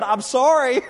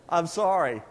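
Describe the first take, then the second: First: Loud, high teasing apology; mock apology. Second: Said in the usual way. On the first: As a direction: apologize loudly, half-joking.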